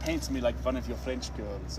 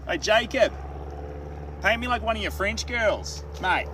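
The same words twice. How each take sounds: First: Lightly acted seductive film quote; sultry movie line. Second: Put-on high, loud, broad Australian accent; Aussie accent. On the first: Streamer quoting the movie line to chat, lightly sultry. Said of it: "First off, the movie, but when you say". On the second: Streamer showing how an Aussie would say it, exaggerated Aussie accent. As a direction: call it out like a brash Aussie. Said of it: "But if an Aussie said it".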